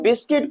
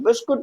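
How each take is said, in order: First: The second syllable has an 'i' vowel. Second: The second syllable has a 'u' vowel. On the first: The speaker calls it right. "तो इसे हम बिस्किट पढ़ते हैं" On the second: The speaker calls it wrong. "बिस्कुट नहीं पढ़ते हैं"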